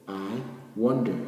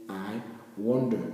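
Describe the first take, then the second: The two takes are said the same way.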